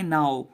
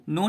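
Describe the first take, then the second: First: "now" said as nau, the o gliding into the w; the right way: "now" rhyming with cow; correct reading now. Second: No said as a short no, without the w glide, to show the mistake; the wrong way: "no" instead of now; wrong reading no. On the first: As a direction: model the fix, "now" with its glide. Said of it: "पढ़ेंगे now". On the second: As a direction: show the error, "no". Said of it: "नहीं पढ़ेंगे हम लोग". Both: Shown as a demonstration.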